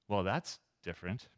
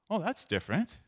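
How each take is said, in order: First: It sounds disapproving of the choice. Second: It sounds impressed by the new idea.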